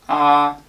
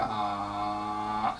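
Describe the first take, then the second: First: The pitch stays level and high throughout. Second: The pitch drags down low, then releases. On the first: "a flat tone" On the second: "I'm dragging your voice down"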